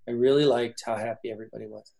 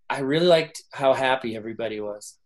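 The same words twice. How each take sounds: First: It is said in a flat, gloomy way. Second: It is said in a lively, upbeat way. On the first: The person is not really thrilled. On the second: The person is genuinely interested.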